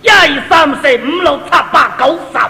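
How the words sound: It is counted effortfully in a Cantonese accent.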